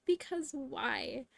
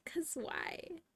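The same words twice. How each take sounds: First: Slow. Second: Whispered. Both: Shown as a demonstration. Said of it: "Can we just talk about that".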